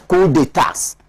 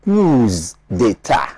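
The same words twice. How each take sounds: First: Coup d'états as "coo day-TAS"; plural on d'états. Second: Coups d'état as "cooz day-TA"; slowly, Z on coups, d'état left open; plural on coups. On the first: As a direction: put the plural S at the end of d'états. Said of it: "accepts coup d'états". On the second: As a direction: coups d'état with the plural heard on the first word. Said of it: "will want it to be". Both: Shown as a demonstration.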